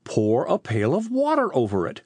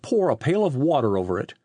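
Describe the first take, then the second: First: Incredulous echo with a big rise and fall; gaping disbelief. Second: Firm, matter-of-fact command; ordering. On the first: Riley echoes the chief's odd order, astonished. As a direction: repeat the order in amazement. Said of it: "exclaimed Riley, gaping". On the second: Police chief sends Riley to the package, firm order. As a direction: give it as a brisk order. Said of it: "ordered the chief". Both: A narrator's reading.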